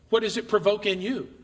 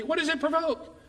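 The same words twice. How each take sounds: First: Said in the usual way. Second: Pitched up high on What, falling to provoke; lifted rhetorical question. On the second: Real, not acted. Preacher repeating the question to the congregation, much higher on What. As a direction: ask it again, much higher, to drive it home.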